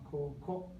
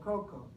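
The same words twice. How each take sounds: First: The pitch starts low and rises. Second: The pitch starts high and falls. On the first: The speaker calls it right. "it's all lower pitch to higher pitch" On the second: The speaker calls it wrong. "Native English speakers tend to say"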